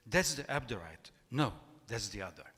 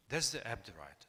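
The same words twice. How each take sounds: First: Louder, punchy reading of the quote; quoted voice, emphatic. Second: Said in the usual way. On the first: Acted. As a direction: announce it like the voice in the novel, with a bit of punch. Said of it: "this is the quote, this voice says". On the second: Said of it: "So this is the whole quote".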